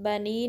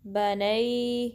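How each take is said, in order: First: It ends in a plain ee vowel. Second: It ends in an a-to-ee glide. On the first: The speaker calls it wrong. "बनी नहीं" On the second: The speaker calls it right. "इसको आप पढ़ेंगे नई बनई"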